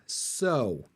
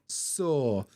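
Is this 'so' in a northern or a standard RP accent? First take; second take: standard RP; northern. First: It is said in a standard RP accent. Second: It is said in a northern English accent. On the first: "in a standard R P accent, you get oh, so" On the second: "what you'll find in northern accents"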